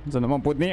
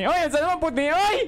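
First: Said in the usual way. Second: Scared yelp. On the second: Real, not acted. Panicked streamer in horror game.

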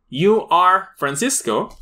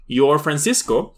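First: "You are" said slowly as two full words; full form slowly. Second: "Your" joining you and are into one; contracted form. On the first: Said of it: "exactamente dices". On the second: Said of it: "También dices". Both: Shown as a demonstration. Teacher contrasting full and contracted forms for students.

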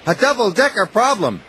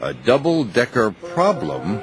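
First: Higher, bright little engine voice; Thomas's voice. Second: Lower, thoughtful boss voice; Sir Topham Hatt musing. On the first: Thomas speaks, then Hatt repeats. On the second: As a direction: turn it over as the pondering boss. Hatt repeats Thomas's words. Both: A narrator's reading.

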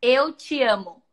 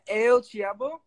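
First: "Eu te amo" slowly and louder, each syllable clear; slow it down so she can copy "Eu te amo"; slow repeat for learner. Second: Hesitant "Eu te amo" with a questioning rise; unsure attempt. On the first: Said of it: "Say that again?". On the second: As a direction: try "Eu te amo" doubtfully. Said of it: "Yeah, yeah". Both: Shown as a demonstration.

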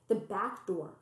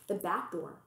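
Both takes have the same delivery.

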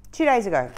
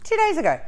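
First: Said in the usual way. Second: "Two days ago" much higher, amazed; stress on two days. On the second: Real, not acted. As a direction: lift "Two days ago" high in disbelief.

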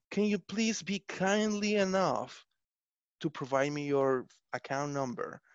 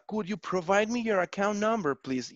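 First: Overly formal. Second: Said in the usual way. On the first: Retold or imitated. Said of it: "people say something like". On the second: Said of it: "that's more than enough to ask".

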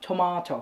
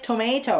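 First: "tomato" said as tuh-MAH-toh; British-style MAH in "tomato". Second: "tomato" said as tuh-MAY-toh; American-style MAY in "tomato"; usual "tomato". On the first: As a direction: say "tomato" with a long ah. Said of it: "คนอังกฤษเขาก็จะเรียกว่า". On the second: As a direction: say "tomato" with an ay in the middle. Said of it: "เราก็เรียก tomato ถูกไหม". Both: Shown as a demonstration.

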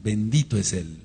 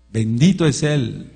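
First: Said in the usual way. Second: Bendito es Él proclaimed louder and slower; louder blessing. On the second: Shown as a demonstration. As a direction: raise the voice on Bendito es Él, drawn out.

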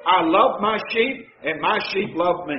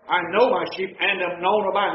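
First: Each "love" pressed a little louder; stress on love. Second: "know" given the weight, falling tune; stress on know. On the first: Preacher rephrases the verse, stressing love. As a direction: press on both "love" words. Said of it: "In common everyday language". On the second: Preacher rereads the verse, stressing know. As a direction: quote it, leaning on "know". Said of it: "That means my sheep love me". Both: Shown as a demonstration.

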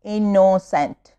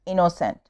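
First: Innocent slowly split into its syllables. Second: Said in the usual way. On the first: Shown as a demonstration. Teacher showing pupils three syllables, innocent slowly broken up. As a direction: stretch out each syllable of innocent. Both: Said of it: "three syllable".

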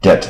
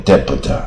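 First: "Debt" said as det; silent B. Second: "debtor" with the b sounded before t; wrongly voiced B. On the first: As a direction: leave the B out of "Debt". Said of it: "这个B不发音啊". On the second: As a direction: mispronounce it as deb-t, "debtor". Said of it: "不要念debtor". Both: Shown as a demonstration.

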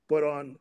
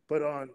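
The two takes are said the same way.

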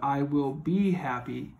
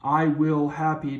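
First: "be" lifted out as the key word in "I will be happy"; corrected sentence with "be" highlighted; stress on be. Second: Said in the usual way. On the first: Shown as a demonstration. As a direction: lean on the word "be" to show it's needed. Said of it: "makes sense". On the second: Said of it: "doesn't make sense".

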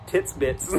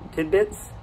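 First: Tits bits said as two words, tits and bits; wrong pronunciation. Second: Said in the usual way. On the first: Shown as a demonstration. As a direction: Tits bits, the flubbed version, dropping. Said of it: "I am an idiot". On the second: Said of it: "Is that a saying?".

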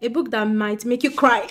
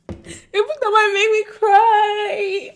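First: Said in the usual way. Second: Hammed-up fake sob, higher and slow; mock crying. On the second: Rereading the prompt to herself as a joke, mock-crying, higher and slow. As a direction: pretend to weep over the prompt.

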